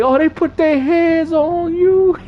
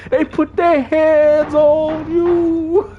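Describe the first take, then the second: First: High, slow, drawn-out movie quote; Chris Tucker impression. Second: High, very slow, half sung; sung, singsong Chris Tucker. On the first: Streamer quoting his favorite movie scene, high and slow. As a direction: stretch it out like the comic character. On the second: Retold or imitated. Sung, streamer replaying the movie line as a singsong joke. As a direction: croon the quote out, teasing. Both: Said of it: "the Chris Tucker part".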